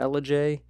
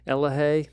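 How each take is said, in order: First: The J is said as a J sound. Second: The J is said as an H sound.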